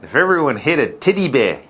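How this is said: It is said in a put-on Australian accent.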